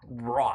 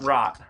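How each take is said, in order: First: The word is said with a British vowel. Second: The word is said with an American vowel. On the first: The speaker calls it right. "you're just saying it like a British accent" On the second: The speaker calls it wrong. "not rot"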